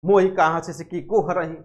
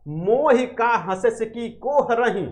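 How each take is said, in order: First: Quick, sudden snap of the verse; blurted retort. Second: Measured, drawn-out recitation of the line; slow verse recital. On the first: Jayasi shooting the line back at the laughing king, blurted. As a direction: fire the line straight back at once. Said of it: "तुरंत कह दी धड़ाम से". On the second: Teacher reciting Jayasi's line to the class, slow and measured. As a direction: recite it slowly, weighing each word. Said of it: "तब जायसी ने कहा". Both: Retold or imitated.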